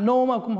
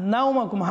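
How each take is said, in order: First: The first syllable has a plain 'o' vowel. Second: The first syllable glides from 'a' to 'u'. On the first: The speaker calls it wrong. "নৌ হবে না" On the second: The speaker calls it right. "নুন ওয়াও জবর নাও, নাও হবে"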